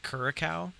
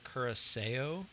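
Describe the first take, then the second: First: Said the way the speaker used to say it. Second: Said the way the speaker now says it. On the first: The speaker calls it wrong. "I used to call this curacao" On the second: The speaker calls it right. "apparently it's curacao"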